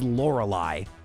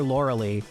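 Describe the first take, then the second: First: The name ends with a 'lie' sound. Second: The name ends with a 'lee' sound. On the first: The speaker calls it right. "when I was first corrected" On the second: The speaker calls it wrong. "people get so mad I call her Lauralee"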